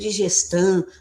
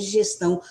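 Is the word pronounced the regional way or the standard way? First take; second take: regional; standard. First: It is said with a regional rural pronunciation. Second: It is said with the standard pronunciation. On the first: This is how people in the countryside say it. The speaker calls it wrong. "a pessoa às vezes fala" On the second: This is the form the grammar treats as correct. The speaker calls it right. "o correto é digestão"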